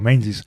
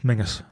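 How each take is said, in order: First: The name is said the way it is spelled. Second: The name is said like "Mingus". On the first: The speaker calls it wrong. "I used to call it was Castle Menzies" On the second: The speaker calls it right. "but it's Mingus"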